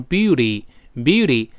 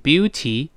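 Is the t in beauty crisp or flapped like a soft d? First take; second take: flapped; crisp. First: The t is voiced, like a quick soft d. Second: The t is a crisp, clear t sound. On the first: This is the reading at normal speaking speed. "常速更多是读beauty，读快之后这个t 会浊化" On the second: This is the careful single-word reading. "你看我读单词是读成beauty"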